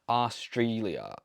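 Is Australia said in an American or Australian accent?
American. The first part of the word is drawn out. "Americans always drag out the arse"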